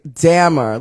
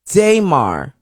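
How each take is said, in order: First: The first syllable sounds like 'damn'. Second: The first syllable does not sound like 'damn'. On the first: The speaker calls it right. "So is it saying like damn?" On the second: The speaker calls it wrong. "Did I say it wrong?"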